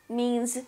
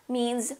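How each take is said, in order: Both takes have the same delivery.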